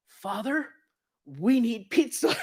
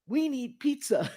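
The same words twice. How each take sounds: First: High, loud, slow "we need pizza"; confident plea. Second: Slow, high and loud "We need pizza" again; confident plea. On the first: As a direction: ask with total confidence. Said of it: "Lloyd, goes". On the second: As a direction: state it with complete certainty. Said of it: "he says it with such confidence". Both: Retold or imitated.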